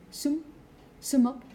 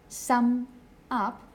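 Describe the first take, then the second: First: "sum, sum up" with a closed "oo" as in "book"; Northern English "sum up", vowel rounded and closed. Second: "sum up" with the open "a"-like standard English vowel. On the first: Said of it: "would be closed". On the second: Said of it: "instead of a". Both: Shown as a demonstration.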